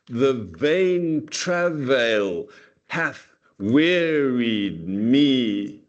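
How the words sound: Many syllables carry heavy stress in a row. "we can read it with an enormous amount, okay, of stressed syllables"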